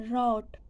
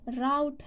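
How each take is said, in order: First: "route" with a single rounded vowel; round, unbroken vowel in "route". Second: "Route" rhyming with out; slow, deliberate "Route" as rowt; route as rout. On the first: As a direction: say "route" without the ow glide. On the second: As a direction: say "Route" with an ow vowel. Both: Shown as a demonstration. Contrasting two pronunciations of route.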